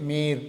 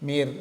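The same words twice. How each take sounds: No difference in how they are said.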